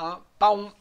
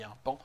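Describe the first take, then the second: First: The last word is two syllables, pa-on. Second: The last word is one syllable, like pan. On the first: The speaker calls it wrong. "on ne dit pas un paon" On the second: The speaker calls it right. "de la même manière qu'on dit un pan"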